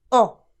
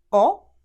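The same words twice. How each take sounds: First: The vowel is said with stress. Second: The vowel is said without stress. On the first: "O con accento" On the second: "O senza accento"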